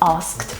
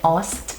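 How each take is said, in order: First: The word is said in its full careful form. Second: The word is said in a reduced fast-speech form. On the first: "instead of asked" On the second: "This is very common in fast speech. ... I normally say asked"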